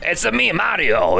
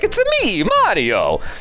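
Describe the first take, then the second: First: A low, raspy adult voice with a New York sound. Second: A very high-pitched, squeaky voice. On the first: "that raspy sort of um, New York adult" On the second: "This very high-pitched, squeaky voice"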